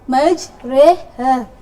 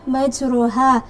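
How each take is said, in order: First: The vowel after the r leans toward e. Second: The vowel after the r is an open a. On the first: "diimalahkan menjadi majreha" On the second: "katanya majruha"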